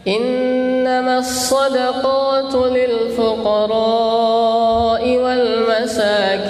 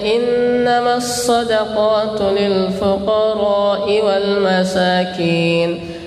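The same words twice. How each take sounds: First: The vowel after the r is held long. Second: The vowel after the r is held short. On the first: The speaker calls it right. "dengan huruf ra-nya dibaca panjang" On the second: The speaker calls it wrong. "huruf ra yang di sini itu cuma dibaca dua harokat"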